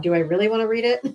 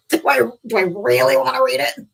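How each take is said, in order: First: Said in the usual way. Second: Exasperated louder repeat. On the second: Shown as a demonstration. Host asking herself about the book, louder and exasperated. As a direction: lean into it, fed up.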